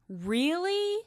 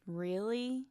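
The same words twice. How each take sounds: First: The word sounds angry. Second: The word sounds doubtful. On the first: The speaker is annoyed by this. "Angry would be" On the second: The speaker does not believe this. "Doubtful would be"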